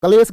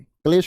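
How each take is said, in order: First: कलेश with a vowel after K, 'ka-les'; wrong spelling pronunciation. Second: क्लेश with K and L joined, 'klesh'; corrected pronunciation. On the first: Teacher reading out the misspelling, कलेश as 'ka-les'. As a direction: say कलेश loosely as 'kales'. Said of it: "कलेश गलत लिखा हुआ है". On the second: Teacher fixing the word, क्लेश as 'klesh'. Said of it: "क्लेश को ठीक करो". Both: Shown as a demonstration.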